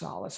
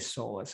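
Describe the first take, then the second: First: The name ends sounding like 'solace'. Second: The name ends sounding like 'solus'. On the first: The speaker calls it right. "actually I think it's pronounced Solace" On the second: The speaker calls it wrong. "I always say Solus"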